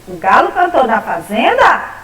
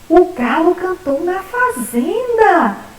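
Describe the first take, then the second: First: It is said with a questioning tune. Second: It is said with excited, surprised exclamation. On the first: The speaker is asking whether it happened. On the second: The speaker is surprised and pleased that it happened. "Exclamativa, vamos exclamar essa frase? ... Olha que surpresa"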